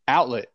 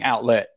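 First: The stress is on the first syllable. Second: The stress is on the second syllable. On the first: The speaker calls it right. "you're saying let too much, bro" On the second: The speaker calls it wrong. "you put emphasis on the wrong syllable, bro. You're saying outlet"

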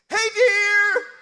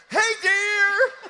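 Both takes have the same delivery.

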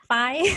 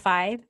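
First: Said with a non-native Asian accent. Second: Said in plain standard English. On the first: "I copy them like five" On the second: "when they say the number five"

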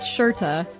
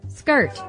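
First: The word begins with a soft 'sh' sound. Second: The word begins with a hard 'sk' sound. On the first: The speaker calls it right. "pronounced shirta" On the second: The speaker calls it wrong. "the way we pronounced it or mispronounced it"

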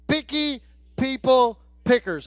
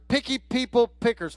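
First: The phrase is said at a slower pace. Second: The phrase is said at a faster pace. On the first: "everybody say that with me"

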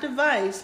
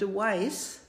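First: The middle consonant is a v sound. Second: The middle consonant is a w sound. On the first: "So not device" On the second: "If it's a V, it's a W"

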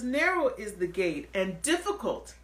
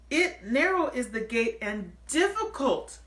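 First: The phrase is spoken at a normal pace. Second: The phrase is spoken slowly and deliberately.

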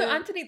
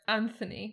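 First: The middle sound is a plain T. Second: The middle sound is a TH.

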